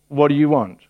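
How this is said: The question sounds stern and a little annoyed. The asker is irritated at being followed. "Or is his tone a little bit stern?"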